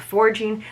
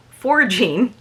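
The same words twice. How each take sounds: First: Said in the usual way. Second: Forging drawn out with a rising end, the r clear; correcting herself to say forging, not foraging; careful correction. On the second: Shown as a demonstration. Telling her viewers the word is forging, spoken slowly and firmly. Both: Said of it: "not foraging".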